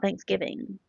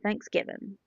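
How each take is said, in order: First: The final g sound is clearly pronounced. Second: The final g sound is dropped. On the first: The speaker calls it wrong. "not Thanksgiving" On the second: The speaker calls it right. "I say Thanksgiving"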